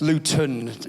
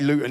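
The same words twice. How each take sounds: First: Standard accent; the middle t is pronounced. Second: Local Luton accent; the middle t is dropped.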